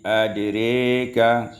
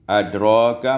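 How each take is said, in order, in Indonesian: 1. Vokal setelah r condong ke e. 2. Vokal setelah r adalah a terbuka.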